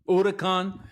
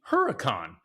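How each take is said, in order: First: It is said in a put-on Spanish-style accent. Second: It is said in a plain American accent. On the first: Other people affect a foreign pronunciation. The speaker calls it wrong. "you're not from Italy or from Spain" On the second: This is how the speaker himself says it. The speaker calls it right. "To me, this is a Lamborghini Huracan"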